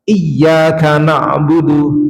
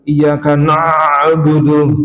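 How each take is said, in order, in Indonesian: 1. Bunyi ain itu ringan dan sedang. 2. Bunyi ain itu tegang dan terlalu kuat. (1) "Yang benar ... ini aja ringan antara sidah dan akhwah" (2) "nah itu salah, bacaan yang salah"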